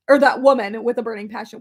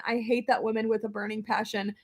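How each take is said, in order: First: Said again louder, with punch; louder restated. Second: Said in the usual way. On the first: Shown as a demonstration. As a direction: push it out louder the second time.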